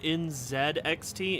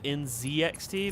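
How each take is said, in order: First: The letters are said the Canadian way. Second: The letters are said the American way. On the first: "I call it N Z X T ... because I hear the Canadians talking about it" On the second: "instead of N Z X T"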